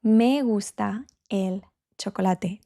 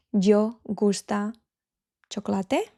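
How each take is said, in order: First: "Me gusta el chocolate" with me stressed clearly. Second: "Yo gusta chocolate" as a learner's mistake; wrong example. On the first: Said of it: "We're going to use me". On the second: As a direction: say "Yo gusta chocolate" as the typical error. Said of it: "That is wrong". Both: Shown as a demonstration.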